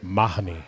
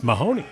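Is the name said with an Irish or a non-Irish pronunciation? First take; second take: Irish; non-Irish. First: The name is said the Irish way. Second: The name is said the non-Irish way. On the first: This is how the Irish narrator says it. "he pronounces it Mahoney" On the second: This is how the hosts usually say it. "for us it's Mahoney"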